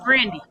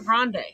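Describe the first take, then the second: First: The name ends with an 'ee' vowel sound. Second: The name ends with an 'ay' vowel sound. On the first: The speaker calls it right. "It's Grandy" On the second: The speaker calls it wrong. "It was never Grande"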